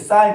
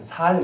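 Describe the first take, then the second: First: The word begins with a tense, strong s sound. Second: The word begins with a plain, soft s sound.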